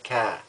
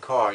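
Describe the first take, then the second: First: It is said with a Boston accent. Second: It is said with an ordinary, non-Boston accent. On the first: "you say car" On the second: "instead of saying car"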